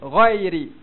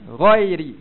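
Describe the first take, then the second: The two takes are said the same way.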